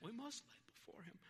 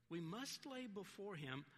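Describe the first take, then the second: First: High-pitched British accent, a little softer. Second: Said in the usual way. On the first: Shown as a demonstration. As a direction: try on a British accent for a quotation. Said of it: "do it in a British accent". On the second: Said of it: "I wish I could do it".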